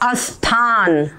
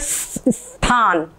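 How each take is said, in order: First: The word begins with an added a vowel. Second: The word begins directly with a hissed s. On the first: The speaker calls it wrong. "कई लोग बोलते अस्थान ... ये दोनों ही गलत है" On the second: The speaker calls it right. "ऐसे सीटी बजाए स्थान ... ई नहीं निकलेगा, स्थान ऐसे बोलना चाहिए"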